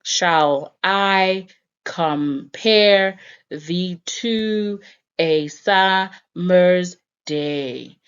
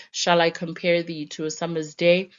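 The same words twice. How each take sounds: First: Slow, syllable-by-syllable "Shall I compare thee to a summer's day", every second syllable stressed; "Shall I compare thee to a summer's day" measured out in deliberate da-DUM pairs; exaggerated iambic stress. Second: Said in the usual way. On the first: Shown as a demonstration. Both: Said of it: "let me try to say this line".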